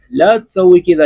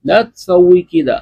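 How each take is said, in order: First: Said in the usual way. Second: Slow careful Arabic, each word held; slow demo. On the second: Shown as a demonstration. Teacher presenting the last sentence to students, slow demo. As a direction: model it slowly for the class. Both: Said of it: "تو آخری جملہ ہے".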